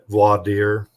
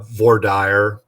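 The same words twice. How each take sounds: First: It is said with a French-style pronunciation. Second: It is said with an English-style pronunciation. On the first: "they put more French into it" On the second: "in Texas, we pronounce it uh"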